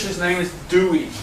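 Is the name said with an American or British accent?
American. Dewey is said with an American accent.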